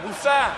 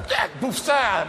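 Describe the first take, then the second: First: Pushed even higher, hammed-up dog call; higher mock call to dogs. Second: Raised, hammed-up call tossing meat to dogs; a dog handler flinging raw meat; mock call to dogs. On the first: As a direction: shout it up at the hounds. Tossing meat to media dogs. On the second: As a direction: toss it like scraps to hounds.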